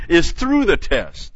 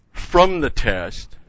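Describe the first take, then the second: First: "through" pitched high and loud; emphatic "through" with a falling finish; stress on through. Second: "from" drawn out and pitched up; stress on from. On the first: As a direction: hit "through" hard, then drop on "the test". Corrects from the test to through. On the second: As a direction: lean slowly on "from". Contrasts mistaken escape with true one. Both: Real, not acted.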